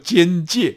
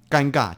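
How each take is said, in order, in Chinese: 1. 这个词读作 jiānjiè。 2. 这个词读作 gāngà。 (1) "应该读作奸介" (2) "这个尴尬不叫尴尬千百年来呢积习的尴尬其实就是大家念错的"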